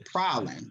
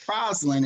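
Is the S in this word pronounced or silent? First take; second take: silent; pronounced. First: The S sound is silent in the word. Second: The S sound is pronounced in the word. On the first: The speaker calls it right. "It's actually Praslin. The S is silent" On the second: The speaker calls it wrong. "I was mispronouncing it"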